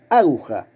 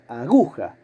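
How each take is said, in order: First: The stress is on the first syllable. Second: The stress is on the middle syllable. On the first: The speaker calls it wrong. "si la sílaba tónica fuera la primera" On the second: The speaker calls it right. "la sílaba tónica es la del medio, es gu"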